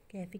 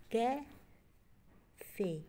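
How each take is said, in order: First: Said in the usual way. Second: कैफे very slow, split as कै... फे; high, loud, stretched कैफे in two beats; broken into syllables. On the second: Shown as a demonstration. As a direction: pause in the middle of कैफे. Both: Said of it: "कैफे के टू syllables हैं".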